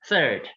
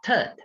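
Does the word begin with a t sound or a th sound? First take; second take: th sound; t sound. First: The word begins with a soft th sound. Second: The word begins with a hard t sound. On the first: The speaker calls it right. "which is third" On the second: The speaker calls it wrong. "not third"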